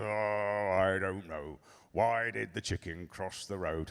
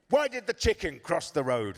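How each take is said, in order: First: Low, quiet, weary play-along; indulgent dad. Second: Put-on high, sing-song little girl's riddle; child telling joke. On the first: Retold or imitated. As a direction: humour the child with tired patience. Dad indulges daughter's tedious joke. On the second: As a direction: pose a riddle like an eager kid. Daughter tells her joke.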